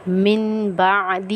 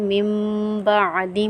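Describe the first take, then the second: First: The first word ends with an n sound. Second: The first word ends with an m sound. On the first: The speaker calls it wrong. "ये गलत है" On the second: The speaker calls it right. "हम पढ़ेंगे"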